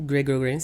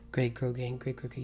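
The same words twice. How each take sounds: First: Said in the usual way. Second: Tongue twister attempt. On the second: Shown as a demonstration. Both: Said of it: "Say that five times fast".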